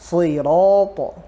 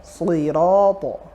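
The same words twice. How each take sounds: First: The consonant is pronounced heavy and thick. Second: The same.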